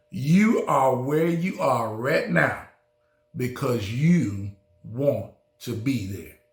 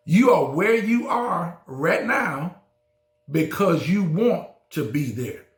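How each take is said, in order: First: Said in the usual way. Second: Repeated louder and higher. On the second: Shown as a demonstration. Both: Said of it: "I said it".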